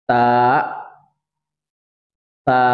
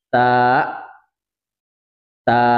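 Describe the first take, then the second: No difference in how they are said.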